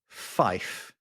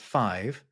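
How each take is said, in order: First: It ends with an 'f' sound. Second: It ends with a 'v' sound. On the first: This is the aviation radio pronunciation. "it's pronounced fife" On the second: This is the everyday pronunciation. "Five is not pronounced five"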